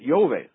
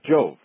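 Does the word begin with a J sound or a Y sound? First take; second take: Y sound; J sound. First: The word begins with a Y sound. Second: The word begins with a J sound. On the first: The speaker calls it right. "they probably pronounced it Yove" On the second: The speaker calls it wrong. "not Jove"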